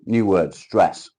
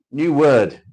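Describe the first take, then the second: First: Slow, loud and stretched out; drawn-out reading. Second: High, loud game show call; mock announcement. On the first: Acted. Reading the word stress to viewers, slow and loud. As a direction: drag each word out for effect. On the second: Reading the next word card to viewers, loud mock announcement. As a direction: boom it out like a quiz host.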